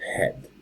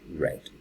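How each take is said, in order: First: The word begins with an H sound. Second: The word begins with an R sound. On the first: The speaker calls it wrong. "the color head instead of" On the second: The speaker calls it right. "instead of re red"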